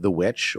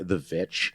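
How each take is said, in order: First: The second word begins with a W sound. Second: The second word begins with a V sound.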